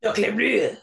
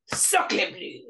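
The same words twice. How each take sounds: First: A bad French accent, hammed up; mock French accent. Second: A bad French accent, breathed and pitched higher; airy mock French. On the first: Friends riffing on a bad French accent, mock French. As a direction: say it like a cartoon Frenchman. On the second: Friends riffing on a bad French accent, airy mock French. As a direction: whisper it like a cartoon Frenchman. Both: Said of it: "this bad French accent".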